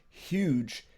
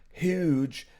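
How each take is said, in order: No difference in how they are said.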